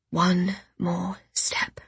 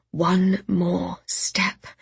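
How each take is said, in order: First: Slow, exhausted whisper. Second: Drawn-out weary whisper; slow whisper. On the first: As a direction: breathe it, barely able to go on. Exhausted, forcing herself onward. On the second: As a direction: murmur it again, drained. Repeated to herself over and over. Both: Acted.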